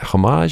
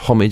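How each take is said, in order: First: The word has an American pronunciation. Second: The word has a British pronunciation. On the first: "as you might say in the States" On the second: "as we say in British English"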